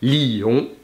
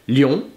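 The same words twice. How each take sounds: First: The two vowels are split into two syllables. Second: The two vowels blend into one syllable. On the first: "on va prononcer ces deux voyelles en deux syllabes" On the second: "on va les prononcer en une seule syllabe"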